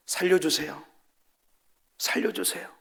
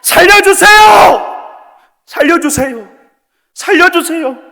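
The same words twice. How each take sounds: First: Softer, near-whispered cry for help; whispered plea. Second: Much higher, louder, slow screaming cry for help; desperate shout. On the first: Preacher mocks a timid prayer as a whisper: faint whispered plea. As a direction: whisper help me as if ashamed to ask. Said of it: "귓속말로". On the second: Preacher shows how the dying cry to God: desperate full-voice shout. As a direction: scream for your life with all your strength. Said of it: "내 있는 힘껏". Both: Shown as a demonstration.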